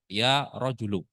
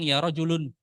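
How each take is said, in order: First: The word ends on a vowel without n. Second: The word ends with an added n sound. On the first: It addresses a specific man present. The speaker calls it right. "Tapi katakan ya rojulu" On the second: It addresses some unspecified man. The speaker calls it wrong. "jangan bilang ya rojulun"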